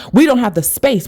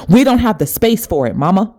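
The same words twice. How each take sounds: First: Much higher and insistent, rising at the end; peak urgent plea. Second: Higher, insistent, leaning on we; raised urgent plea. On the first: Spirit telling mother there is no room for sadness, peak plea. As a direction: climb even higher, begging her to listen. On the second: Spirit urging her crying mother, higher insistent plea. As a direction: push hard, almost pleading. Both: Retold or imitated. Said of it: "and it said to her".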